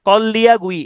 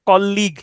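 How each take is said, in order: First: It is said syllable by syllable, following the spelling. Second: It is said as the usual two-syllable word.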